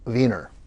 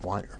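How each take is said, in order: First: The first syllable sounds like 'wee'. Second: The first syllable sounds like 'wine'. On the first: The family comes from Vienna. "if you come from Vienna, it's Wiener" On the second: The family were winemakers. "your ancestors made wine in a vineyard"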